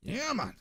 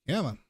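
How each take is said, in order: First: High pitched exasperated come on; exasperated high whine. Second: Said in the usual way. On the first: Real, not acted. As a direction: whine it in frustration. Second take much higher.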